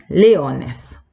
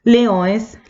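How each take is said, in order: First: Said in the usual way. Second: "Leones" with a nasal õe and no clear n; very nasal vowels. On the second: Shown as a demonstration. Teacher showing Portuguese before the translation, nasal "Leones". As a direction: say "Leones" through the nose, higher in pitch. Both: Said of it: "bien nasal el sonido".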